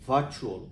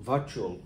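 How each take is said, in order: No difference in how they are said.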